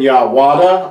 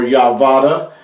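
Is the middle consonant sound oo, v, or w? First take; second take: w; v. First: The middle sound is a w consonant. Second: The middle sound is a v consonant. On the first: "It's never been Yahwada" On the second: "or Yahvada"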